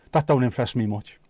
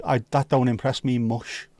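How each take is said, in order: First: Said in the usual way. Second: Final consonant of "mush" softened to sh; mush for much. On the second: Shown as a demonstration. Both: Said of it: "I prefer if it was".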